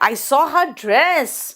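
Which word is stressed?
dress. The stress falls on the word dress. "Dress पे emphasise किया तो समझ में आ गया अच्छा ड्रेस देखा।"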